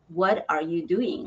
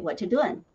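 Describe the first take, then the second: First: Every word is said, including 'are'. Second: The word 'are' is dropped entirely. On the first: "and also the pronunciation, like what are you doing" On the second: "But here I can hear some people, they say"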